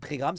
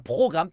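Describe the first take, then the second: First: The first syllable is said as 'pré'. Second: The first syllable is said as 'pro'. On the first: The speaker calls it wrong. "pas un prégramme, ça se dit pas" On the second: The speaker calls it right. "un programme"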